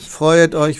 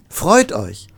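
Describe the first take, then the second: First: It is said in a dull, flat way. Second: It is said in a lively, joyful way. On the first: Nobody would believe the words. The speaker calls it wrong. "das glaubt ja kein Mensch" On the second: The words are believable. The speaker calls it right. "so soll es klingen"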